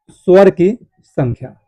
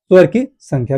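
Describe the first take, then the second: First: Slow, with a gap before the last word; slow dictation. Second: Said in the usual way. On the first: Shown as a demonstration. Teacher dictating key points to students, slow and spaced out. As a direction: dictate it slowly for note-taking.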